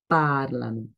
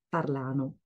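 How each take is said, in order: First: The stress is on the first syllable. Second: The stress is on the second syllable. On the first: The speaker calls it right. "l'accent tombe sur la première partie du mot" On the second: The speaker calls it wrong. "j'entends souvent la dernière personne prononcer comme ça"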